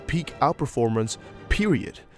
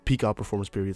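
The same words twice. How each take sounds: First: Period is set off by a pause. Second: Period runs on with no pause.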